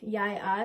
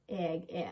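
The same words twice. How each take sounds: First: It is said in standard Bokmål pronunciation. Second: It is said in the northern Norwegian dialect.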